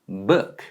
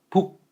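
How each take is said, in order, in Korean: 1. 영어식 발음이에요. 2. 한국식 발음이에요. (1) "영어로 하면 book" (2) "한글로 하면 북"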